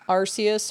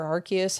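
First: Arceus with an S sound, AR-see-us; soft-C "Arceus". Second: Arceus with a K sound, AR-kee-us; hard-C "Arceus". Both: Shown as a demonstration. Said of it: "however you wanna say that".

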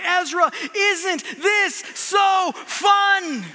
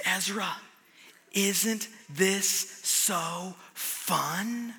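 First: Higher, louder, very slow, yelled over the ride; shouted tease. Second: Softer, very slow, sly teasing question; teasing dad. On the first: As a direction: shout the question down the drop. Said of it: "I say". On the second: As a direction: lean in and tease her gently. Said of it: "I lean over to her and I say". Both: Retold or imitated.

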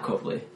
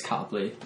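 First: Copley said as COPE-lee; wrong surname pronunciation. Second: Copley said as COP-lee; correct surname pronunciation. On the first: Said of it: "it's Copley". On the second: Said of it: "I'm just like". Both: Shown as a demonstration.

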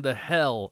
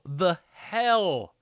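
First: Said in the usual way. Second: "hell" drawn out high; stress on HELL. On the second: Real, not acted. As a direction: punch "the hell" with a big swooping HELL. Repeats phrase for comic emphasis.

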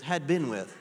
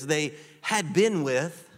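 First: Said in the usual way. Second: Drawn-out phrase rising on "been"; slow, leaning on "they had been with"; slow emphasis. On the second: Shown as a demonstration. Preacher slowing down to make the congregation note it. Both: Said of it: "would you circle that in your scriptures".

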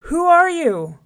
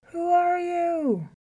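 First: High, very loud challenge; hollered. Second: High, drawn-out, distant-sounding echo; echo from a well. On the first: Lion challenges his reflection in the well, hollering. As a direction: holler down at a rival. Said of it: "He hollered". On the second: Well answers the lion, echoing his holler. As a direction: call back slowly like an echo. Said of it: "voice came echoing back up". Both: A narrator's reading.

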